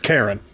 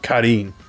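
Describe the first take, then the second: First: The name is said with an English pronunciation. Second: The name is said with a Japanese-style pronunciation. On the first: This is how an English reader reads it. "English speaker sees that name, it's Karen" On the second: This is how it would be said in Japanese. "not Karin"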